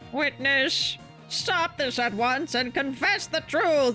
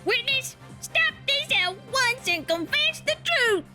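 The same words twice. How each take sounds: First: It is said in a plain, normal voice. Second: It is said in a cutesy Southern drawl.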